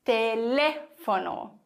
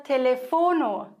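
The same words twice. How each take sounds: First: Telefono slowly, with a long stressed LE; stress on second syllable. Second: Telefono with the third syllable FO stressed; mistaken stress on FO. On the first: Teacher corrects the German mistake, stressing LE in Telefono. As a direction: stretch LE in Telefono, fono falling away. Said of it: "Du musst sagen". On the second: Teacher shows learners the German mistake, stressing FO in Telefono. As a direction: put the weight on FO in Telefono. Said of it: "ganz oft den Fehler". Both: Shown as a demonstration.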